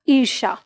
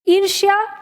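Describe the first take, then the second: First: The word ends with a plain 'sha' sound. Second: The word ends with a 'shya' sound. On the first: This is the form that changed in everyday Hindi. "ईर्षा बोलने में हमें कम stress पड़ रहा है" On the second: This is the form taken directly from Sanskrit. "य को अगर हम इसके साथ बोलते हैं तो हमारी जिह्वा पर ज्यादा स्ट्रेस पड़ रहा है"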